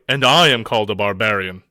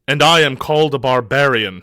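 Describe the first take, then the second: First: It is grunted with disgust. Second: It is said without disgust.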